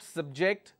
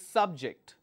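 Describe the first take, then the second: First: The stress is on the second syllable. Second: The stress is on the first syllable. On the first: It names an action done to someone. "where the second syllable stress is used, it means that's a verb" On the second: It names a person or topic. "when I'm focusing on the first syllable, it means it's a noun"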